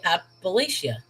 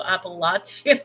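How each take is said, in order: First: Appalachia with a long ay sound, a-pa-LAY-sha; her own pronunciation. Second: Appalachia with a broad ah, a-pa-LAH-chee-a; ah sound. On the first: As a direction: say Appalachia the way she grew up hearing it. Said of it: "I would say". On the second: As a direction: Appalachia with a broad ah in the middle, as she always says it. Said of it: "do an ah sound". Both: Shown as a demonstration.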